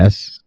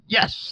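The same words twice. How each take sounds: First: It is said plainly, without excitement. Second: It is said with excitement.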